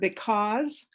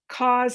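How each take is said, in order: First: Both syllables are fully said. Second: The first syllable is left out. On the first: The speaker calls it right. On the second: The speaker calls it wrong.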